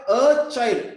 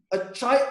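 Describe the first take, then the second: First: Put-on "a" in "a child" punched loud, falling tune; "a" of "a child" made louder than "child"; stress on A. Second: Said in the usual way. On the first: Shown as a demonstration. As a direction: hit the little word "a" hard, as in any child at all. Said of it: "I'm emphasizing, I'm stressing on that word". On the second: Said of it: "I'm emphasizing".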